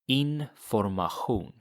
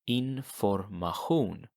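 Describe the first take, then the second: First: The ending has a throaty ch sound. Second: The ending has a throaty ch sound.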